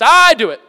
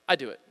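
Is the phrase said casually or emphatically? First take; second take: emphatically; casually. First: It is said forcefully, words run together, stressed I. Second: It is said casually, with words kept separate. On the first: "She's emphatic. In fact, she rolls all the words into one, like, one sound, and it's, ... Just like that. The I is really emphasized" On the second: "she doesn't just say it nonchalantly. She doesn't say, like"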